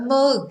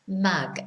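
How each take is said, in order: First: The vowel is a northern 'u' sound. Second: The vowel sounds more like 'a'. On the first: "is a mug in Manchester" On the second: "in the south of England you may hear it pronounced as mag"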